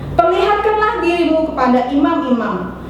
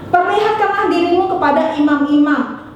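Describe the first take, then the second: No difference in how they are said.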